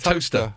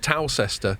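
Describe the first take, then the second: First: The name is shortened to two syllables. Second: Every spelled syllable of the name is pronounced. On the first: The speaker calls it right. "they shorten it. It's toaster" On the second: The speaker calls it wrong. "you'd think it would be Towcester"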